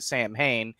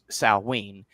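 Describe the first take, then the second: First: The word is pronounced letter by letter as spelled. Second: The word is pronounced differently from its spelling. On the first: The speaker calls it wrong. "a lot of people, myself included, often pronounce it Sam Hain" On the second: The speaker calls it right. "technically it's pronounced Samhain"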